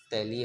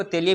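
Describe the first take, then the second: First: तैलीय with an "ai" vowel; first pronunciation. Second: तेलीय with an "e" vowel; closed e sound in तेलीय; alternative pronunciation. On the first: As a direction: say तैलीय as "tai-lee-ye". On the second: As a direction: say तेलीय as "tay-lee-ye". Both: Shown as a demonstration. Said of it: "इसको तेलीय भी बोल सकते हो".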